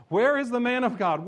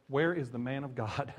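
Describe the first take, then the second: First: Loud and high, hammering WHERE; preaching shout. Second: Said in the usual way. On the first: Acted. Preacher shouting the student's question aloud. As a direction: cry it out to the crowd.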